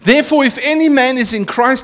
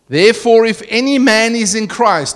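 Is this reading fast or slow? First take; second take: fast; slow. First: It is read at a normal, quicker pace. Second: It is read at a slower, deliberate pace.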